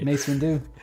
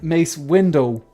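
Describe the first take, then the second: First: The last syllable ends with an 'oo' sound. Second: The last syllable ends with an 'oh' sound.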